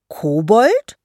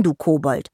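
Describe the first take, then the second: First: "Kobold" as a loud, rising question; high, affronted "Kobold?"; indignant echo. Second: KOBOLD as a falling jibe; "Kobold" said as a falling, teasing put-down; name-calling. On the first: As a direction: repeat "Kobold" in offended disbelief, pitch climbing. Troll repeats the insult, offended. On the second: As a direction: drop "du Kobold" as a closing insult. Name-calling ends the scolding. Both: Acted.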